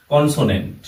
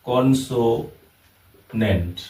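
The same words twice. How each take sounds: First: Said in the usual way. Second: consonant very slowly, split into three syllables with pauses. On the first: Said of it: "এখানে consonant". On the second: Shown as a demonstration. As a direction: break consonant apart syllable by syllable, pausing between each. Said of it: "কন, এটা একটা syllable".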